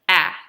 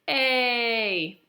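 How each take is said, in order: First: The vowel is a short 'ah' sound. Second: The vowel is a long 'ay' sound.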